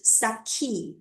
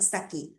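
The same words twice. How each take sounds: First: "saki" with a strong aspirated k; learners' first-guess pronunciation. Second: "saki" with a soft, unaspirated k; correct unaspirated k. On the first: Teacher showing students' first impression, "saki" with aspirated k. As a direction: puff the k in "saki". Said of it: "the first impression for them is saki". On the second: Teacher contrasting with the students' guess, soft unaspirated "saki". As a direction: say "saki" softly, no puff on the k. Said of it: "not saki". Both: Shown as a demonstration.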